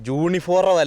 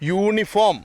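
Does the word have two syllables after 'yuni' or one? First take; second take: two; one. First: The ending is split into two syllables, 'forum'. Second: The ending is a single syllable, 'form'. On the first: The speaker calls it wrong. "യൂണിഫോറം അല്ല" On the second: The speaker calls it right. "യൂണിഫോം അങ്ങനെ പറയണം"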